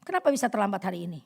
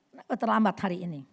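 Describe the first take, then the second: First: Fast, curt demand; nagging tone. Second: Fast, curt repeat; nagging tone. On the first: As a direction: snap at the late husband. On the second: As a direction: demand again, impatient. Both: Shown as a demonstration. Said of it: "Ini nada yang nggak bagus".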